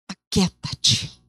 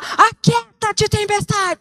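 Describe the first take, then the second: First: It is said quietly and calmly. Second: It is shouted loudly.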